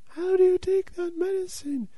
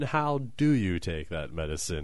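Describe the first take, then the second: First: It is said in a distant, put-on voice. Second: It is said in a normal, near voice. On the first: An audience member asks it from far away. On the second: The speaker asks it in their own voice.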